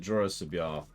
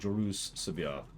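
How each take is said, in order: First: The u sound in the first name is short. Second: The u sound in the first name is drawn out. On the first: "I've always pronounced it" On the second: "Gotta emphasize that extra U"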